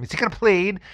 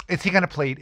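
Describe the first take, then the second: First: Pushy prosecutor. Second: High, put-on nagging voice; impatient prosecutor. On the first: Retold or imitated. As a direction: press for the answer one more time, exasperated. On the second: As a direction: badger him like a bored, pushy prosecutor. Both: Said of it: "and of course the same attitude".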